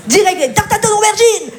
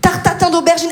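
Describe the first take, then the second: First: "tatin" punched higher, falling at the end; emphatic repeat. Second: Said in the usual way. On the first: Shown as a demonstration. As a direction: repeat it, leaning hard on "tatin". (répétition appuyée sur « tatin »)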